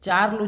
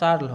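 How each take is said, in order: First: The syllable begins with a 'ch' sound. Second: The syllable begins with an 'sh' sound. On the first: The speaker calls it wrong. "চার্ল উচ্চারণ হবে না" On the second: The speaker calls it right. "এটা শার্ল হবে"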